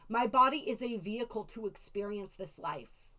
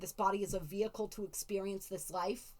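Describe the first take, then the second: First: It is said in an excited, appreciative tone. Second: It is said in a flat, detached tone.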